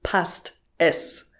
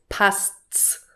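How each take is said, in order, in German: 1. Beide Wörter werden vollständig und getrennt ausgesprochen. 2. Die beiden Wörter verschmelzen zu einer Silbe. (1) "ist schönes Hochdeutsch" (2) "Es ist viel einfacher für uns, das so auszusprechen"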